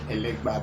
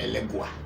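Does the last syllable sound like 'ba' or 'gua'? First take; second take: ba; gua. First: The last syllable is pronounced ba. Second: The last syllable is pronounced gua. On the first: This is the Yoruba form of the name. "in Yoruba, some parts they say elegba" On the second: This is the diaspora form of the name. "They say elegua"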